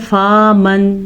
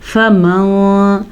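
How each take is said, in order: First: The first vowel is drawn out long. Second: The first vowel is kept short. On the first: The speaker calls it wrong. "अक्सर लोग पढ़ लेते हैं फ़ा मन, नहीं, ये गलत है।" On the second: The speaker calls it right. "फ़ा के ऊपर ज़बर है तो इसको आपने लंबा नहीं करना।"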